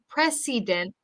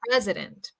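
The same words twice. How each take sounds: First: The middle vowel is a full vowel. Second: The middle vowel is reduced to a schwa. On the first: The speaker calls it wrong. "We don't want to say president" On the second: The speaker calls it right. "We want to say pres, a, a, schwa, dent"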